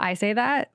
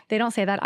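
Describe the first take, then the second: First: I set against they, with that lifting at the end; playful self-correction, ending on a lift; stress on I, end on that. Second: Don't pushed a little harder than the rest; casual correction with a light push on don't; stress on don't. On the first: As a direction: claim the saying as your own, I first. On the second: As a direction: lean lightly on don't to deny it. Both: Shown as a demonstration.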